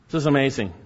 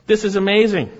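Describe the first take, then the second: First: Said in the usual way. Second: High, loud burst of amazement; amazed exclamation. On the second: Real, not acted. Preacher marvelling at the earthquake, amazed exclamation. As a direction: proclaim it with raised, ringing force. Exclaims over miracle, then repeats it.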